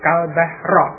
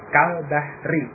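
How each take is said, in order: First: The last word ends in an a vowel. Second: The last word ends in an i vowel. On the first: The speaker calls it wrong. "membacanya dengan fathah huruf akhirnya kal bahra" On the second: The speaker calls it right. "membuat menjadi kasrah kal bahri"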